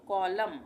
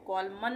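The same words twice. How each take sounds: First: "कॉलम" ending on M, said louder; silent N. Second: "कॉलमन" with an audible N at the end; wrong reading with N. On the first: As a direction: say "कॉलम" firmly, no N after the M. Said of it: "एन silent हो जाएगा". ("कॉलम", आख़िर का न silent) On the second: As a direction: say "कॉलमन", adding मन after कॉल. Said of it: "नहीं पढ़ेंगे". ("कॉलमन", आख़िर में न की आवाज़ के साथ) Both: Shown as a demonstration.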